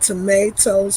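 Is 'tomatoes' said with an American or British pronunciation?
American. The word has an American pronunciation.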